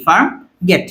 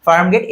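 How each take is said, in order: First: farm rising, a pause, then গেট; syllable-by-syllable pronunciation. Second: Said in the usual way. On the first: Shown as a demonstration. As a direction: say farm গেট as two separate beats. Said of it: "উচ্চারণটা এরকম হয় না". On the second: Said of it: "farm গেট কি এরকম উচ্চারণ হয়".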